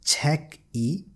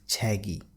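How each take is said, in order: First: The two syllables are said separately with a break. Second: The final consonant runs into the following vowel. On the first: The speaker calls it wrong. "you will not read it as check E" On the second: The speaker calls it right. "you will read it as chegi"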